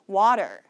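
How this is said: It is said in an American accent with a flapped t. "미국 표준 발음으로는요"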